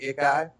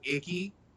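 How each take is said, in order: First: The name ends with an 'eye' sound. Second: The name ends with an 'ee' sound. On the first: "but it's actually Ikai" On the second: "you can honestly pronounce it, pronounce it Icky"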